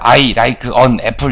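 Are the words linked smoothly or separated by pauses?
separated. Each word is separated by a short pause. The speaker calls it wrong. "이렇게 네 번에 끊는 게 아니라"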